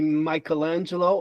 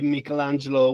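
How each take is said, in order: First: The name is said with an American English pronunciation. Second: The name is said with an Italian pronunciation. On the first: This is the form most Americans know. "only because we're in America" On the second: This is the form used when speaking Italian. "when I'm in Italy and speaking Italian"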